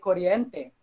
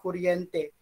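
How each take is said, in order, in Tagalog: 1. Ang unang patinig ay tunog 'o'. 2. Ang unang patinig ay tunog 'u'. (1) "Ito pala ay kuryente. ... hindi siya U" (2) "Nasanay tayo na kuryente"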